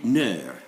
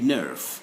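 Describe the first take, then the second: First: The final F is silent. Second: The final F is pronounced. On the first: The speaker calls it right. "we say" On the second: The speaker calls it wrong. "We don't say nerve, like that"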